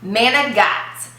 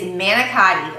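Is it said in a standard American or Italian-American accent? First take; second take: Italian-American; standard American. First: It is said in an Italian-American accent. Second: It is said in a standard American accent.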